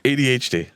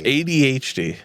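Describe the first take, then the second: First: It is said flat and plain. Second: It is said with an odd inflection.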